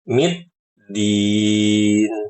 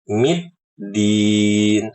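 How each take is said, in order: The two takes are said the same way.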